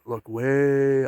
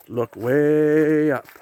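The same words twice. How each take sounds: First: Said in the usual way. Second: Booming giant voice, much higher, louder and very slow; Jolly Green Giant. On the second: Retold or imitated. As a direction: stretch "Look way up" out like a big jolly giant calling. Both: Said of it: "Kinda like the Jolly Green Giant".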